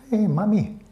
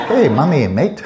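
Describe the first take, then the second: First: High-pitched attempt at an Aussie kid; Australian kid. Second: Loud, high, hammed-up Aussie kid; bad Australian accent. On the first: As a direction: try a child's Australian accent, pitched up. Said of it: "Aussie kid saying". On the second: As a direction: ham up a bad Australian accent through laughter. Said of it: "I can't mimic the Australian accent".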